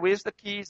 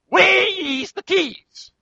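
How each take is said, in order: First: It is said calmly at normal volume. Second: It is said loudly, close to shouting.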